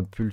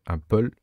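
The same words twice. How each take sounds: First: "pull" dit à la française, avec un u français; prononciation à la française. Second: "pull" attempted in English, rhyming with "poll". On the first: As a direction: say "pull" like the French word for sweater. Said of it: "je sais pas comment on dit". (« pull » prononcé à la française) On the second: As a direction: say "pull" with an open o, French-accented English. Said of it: "j'ai un très mauvais accent anglais". (« pull » tenté à l'anglaise, avec un o ouvert) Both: Real, not acted.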